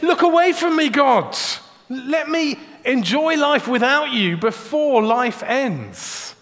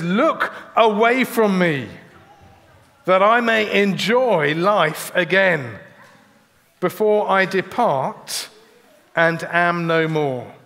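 First: Much higher, louder, pleading cry; raised desperate outburst; loud plea. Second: Slow, heavy reading of the plea; weary, drawn-out plea; slow lament. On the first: Retold or imitated. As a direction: fling the words up at God. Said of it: "He's saying". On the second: Acted. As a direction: let each phrase fall away slowly. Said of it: "He says".

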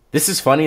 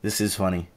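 First: Higher, louder amused "this is funny"; amused exclamation. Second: Softer, muttered "This is funny."; muttered aside. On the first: Chuckling to his viewers, an amused higher exclamation. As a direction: blurt "this is funny" out high with a grin. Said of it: "amused exclamation". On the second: Musing to himself, a softer muttered aside. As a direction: say "This is funny." to yourself under your breath. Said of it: "repeated, muttered". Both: Real, not acted.

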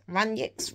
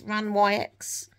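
First: Runyx? said RUN-yiks with a questioning rise; Runyx? as RUN-yiks, tentative; unsure pronunciation try. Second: Runyx? said RAHN-wy-ex with an open vowel; Runyx? reshaped as RAHN-wy-ex; different pronunciation try. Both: Shown as a demonstration. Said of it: "I don't know how you say that".

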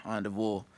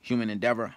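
First: "endeavor" opening on AHN, ending in VOR; the on-de-vor version of "endeavor"; alternate ENDEAVOR. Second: "endeavor" with DEV in the middle and -er at the end; standard ENDEAVOR. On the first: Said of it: "And I said endeavor". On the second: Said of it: "but it's endeavor". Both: Shown as a demonstration.

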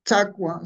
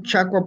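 First: Chacua said "TSA-kwa"; ts variant. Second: Chacua with a "ch" onset; ch variant. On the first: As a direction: start chacua with a ts instead of ch. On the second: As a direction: say Chacua as "CHA-kwa". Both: Shown as a demonstration. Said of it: "podemos pronunciar".

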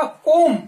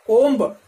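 First: कोम said "kom" with a silent b; कोम ending on m, no b sound; correct pronunciation. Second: कोम्ब with the b sounded at the end, "komb"; कोम्ब ending on a clear b; wrong pronunciation. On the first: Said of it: "इसका उच्चारण क्या होगा". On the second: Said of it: "तो ये उच्चारण गलत है". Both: Shown as a demonstration.

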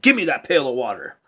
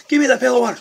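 First: Low, quick grab for the bucket; mildly insistent, fast; Jack demanding. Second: High, louder, laughing as he grabs; laughing tug of war. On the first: Jack tells the girl to hand over the water, fast and pushy. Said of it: "And Jack said". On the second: Jack fights over the pail, laughing high and loud. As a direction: giggle through the demand. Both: Acted.

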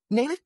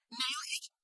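First: Said in the usual way. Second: "Nail it?" breathed as a soft, voiceless whisper. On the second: Acted. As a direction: drop "Nail it?" to a frightened whisper. Boy asks about nailing coffin.

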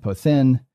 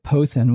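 First: Pothin stressed on the last syllable, THIN; final-syllable stress. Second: Pothin stressed on the first syllable, PO; penult stress. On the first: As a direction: put the accent on the end of pothin. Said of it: "But here as an enclitic". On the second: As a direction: put the accent on the start of pothin. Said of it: "with an acute on its penult". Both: Shown as a demonstration.

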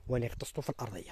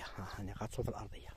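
First: Said in the usual way. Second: "اني غطسته في الارضيه" said again in a soft whisper; hushed whisper so the birds stay calm; whispered repeat. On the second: Real, not acted. Repeats the phrase, the second time whispered.

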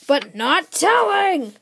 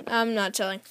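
First: High, loud and slow villain taunt; a kid hamming up a villain's loud, slow taunt; dramatic shout. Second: Said in the usual way. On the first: Acted. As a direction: stretch out "telling" like a booming taunt. Villain teases the hero.

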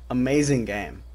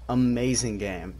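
The two takes are said the same way.

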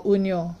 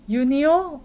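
First: "Unio" begun on a pure oo, OON-yo; first vowel of "Unio" said as "oo"; OO-sound pronunciation. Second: "Unio" begun with a y glide, YOO-nyo; first vowel of "Unio" said as "yoo"; Y-sound pronunciation. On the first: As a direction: say "Unio" with no y at the start. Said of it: "not very sure how to pronounce this". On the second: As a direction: say "Unio" starting like "you". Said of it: "there's actually these two pronunciation". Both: Shown as a demonstration.

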